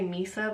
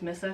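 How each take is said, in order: First: The name does not sound like Melissa's ending. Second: The name sounds like the end of Melissa. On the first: The speaker calls it wrong. "I always want to say Misa" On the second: The speaker calls it right. "I know it's Missa because her name's Melissa"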